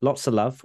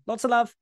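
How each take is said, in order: First: Said in the usual way. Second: Very high squeaky sign-off; helium voice. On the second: Acted.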